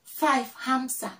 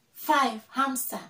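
No difference in how they are said.

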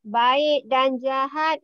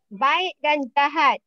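First: Said again slowly for the class; slow it down so students catch every word; slow, clear classroom repeat; slower repeat. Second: Said in the usual way. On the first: Shown as a demonstration. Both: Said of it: "teacher repeats the prompt".

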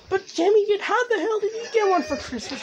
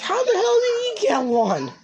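First: High, exasperated demand; real jealous indignation; indignant outburst. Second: High and slow, every word pushed; real exasperation, slowed and leaned on; slower indignant repeat. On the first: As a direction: voice jumps up in disbelief. Jealous that Jimmy got one. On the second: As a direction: drag it out in jealous disbelief. Repeats jealous question. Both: Real, not acted.

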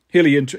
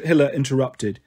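First: "Hilly inter-" stumbled, cut off mid-word; a reading slip before the correction; misread name. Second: Said in the usual way. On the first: Real, not acted. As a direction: trip over the name "Hilly" and break off. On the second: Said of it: "Hilly inter".

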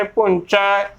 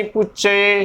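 First: ਪੁੰਚਾ with n and open ai; open nasal punchai. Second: ਪੁੱਚੇ with no nasal, closed e; wrong puchche. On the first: Teacher modelling the right word, ਪੁੰਚਾ as punchai. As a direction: finish ਪੁੰਚਾ on a wide ai. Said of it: "ਹੀ ਉਚਾਰਨ ਕਰਨਾ ਹੈ". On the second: Teacher showing the misreading, ਪੁੱਚੇ without nasal. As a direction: double ch in ਪੁੱਚੇ, narrow e ending. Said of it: "ਇਹ ਵੀ ਗਲਤ ਹੀ ਉਚਾਰਨ ਹੋਵੇਗਾ". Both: Shown as a demonstration.

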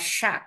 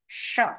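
First: "shock" as SHAHK, open A; A vowel. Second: "Shock" with an open short O; short O vowel. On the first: Teacher gives the other accepted reading, A vowel. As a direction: model "shock" with an A sound. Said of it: "or A". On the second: Teacher gives first accepted reading, short O vowel. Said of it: "không phải sốc đâu". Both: Shown as a demonstration.

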